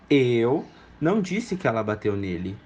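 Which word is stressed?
eu. The word eu is stressed. Someone else said it. "Eu não, mas alguém pode ter dito"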